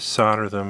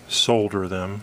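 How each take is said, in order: First: Solder is said with an American pronunciation. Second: Solder is said with a British pronunciation.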